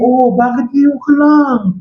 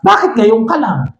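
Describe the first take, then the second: First: It is said gently, with understanding. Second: It is said with frustration, like an attack.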